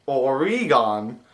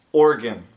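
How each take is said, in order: First: "Oregon" drawn out as or-ee-GAHN; the wrong way, "Oregon" with a long ee and full final vowel; mispronounced Oregon. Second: "Organ" in two short beats, OR-gun; "Organ" with no middle ee and a weak ending; local pronunciation. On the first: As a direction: say "Oregon" slowly in three beats, ending "gone". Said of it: "it is not pronounced". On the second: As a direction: say "Organ" like the body part, falling. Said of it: "but it's pronounced". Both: Shown as a demonstration.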